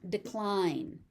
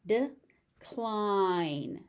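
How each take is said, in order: First: Said in the usual way. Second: "Decline" as de, pause, cliiine; syllable by syllable. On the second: Shown as a demonstration. Teacher sounding out "Decline" for learners, syllable by syllable. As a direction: split "Decline" and stretch the second part.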